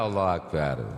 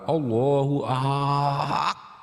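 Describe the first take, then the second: First: It is said plainly, with a short "Ak". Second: The "Ak" is stretched out long and heavy.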